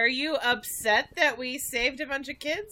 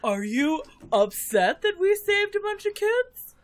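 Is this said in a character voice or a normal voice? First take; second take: normal; character. First: It is said in the speaker's own normal voice. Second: It is said in a put-on character voice. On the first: The speaker calls it wrong. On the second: The speaker calls it right.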